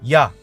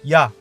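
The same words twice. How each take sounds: The two takes are said the same way.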